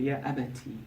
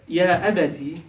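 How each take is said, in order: First: Softer, tender address to father; endearing. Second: Said in the usual way. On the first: Shown as a demonstration. Child softly addressing a doubting father, endearing. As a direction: coax your beloved father gently. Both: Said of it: "obviously to be endearing".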